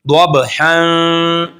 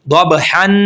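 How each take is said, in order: First: दबहन very slow, the न hidden in the nose; tajweed ikhfa; nasal ikhfa. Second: दबहन with a clear न; wrong demo; wrong, plain nun. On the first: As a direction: hide the nun nasally. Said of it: "इख्फा करेंगे". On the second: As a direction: pronounce the न openly. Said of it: "नहीं करेंगे". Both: Shown as a demonstration.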